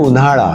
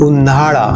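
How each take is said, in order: First: The first syllable is short. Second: The first syllable is held long. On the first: The speaker calls it right. "आपण म्हणतो उन्हाळा" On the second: The speaker calls it wrong. "असा उच्चार करत नाही"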